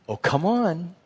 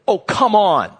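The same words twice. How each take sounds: First: The voice sounds gentle and encouraging. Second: The voice sounds impatient and exasperated. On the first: The speaker is coaxing a child to come along. "you'd think I was talking to a child or someone who is younger that I want to encourage them to come" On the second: The speaker is annoyed with the listener. "that's completely different because of the tone, the tenor, the inflection, the volume"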